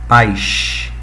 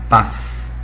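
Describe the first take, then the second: First: The word is said with the carioca hiss. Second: The word is said plainly, without the carioca hiss.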